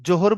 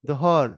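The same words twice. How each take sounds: First: The first consonant is a 'j' sound. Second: The first consonant is a 'z' sound. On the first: The speaker calls it wrong. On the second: The speaker calls it right.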